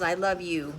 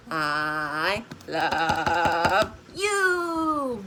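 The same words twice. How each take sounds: First: Said in the usual way. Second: Very slow, drawn-out I love you in a lower voice; husband's slow I love you. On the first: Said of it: "own repeat". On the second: Retold or imitated. Husband saying it to giggling grandkids, very slow and low. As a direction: stretch each word out long like the husband does. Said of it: "as my husband says".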